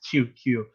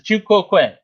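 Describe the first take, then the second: First: The second word is said as one syllable. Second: The second word is said as two syllables. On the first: The speaker calls it wrong. "I usually pronounced it as two q" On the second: The speaker calls it right. "but it's two quote quay"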